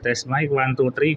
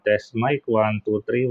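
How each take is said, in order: First: Background noise is audible without noise reduction. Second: Background noise is suppressed by noise reduction. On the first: "naka-off na yung noise reduction" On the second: "naka naka-noise reduction on na 'to 'no"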